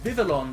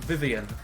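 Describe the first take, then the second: First: The L sounds in the name are pronounced. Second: The L sounds in the name are silent. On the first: The speaker calls it right. "I always pronounce that as Vivillon because it's got two L's in it" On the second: The speaker calls it wrong. "there aren't many words that have two silent L's"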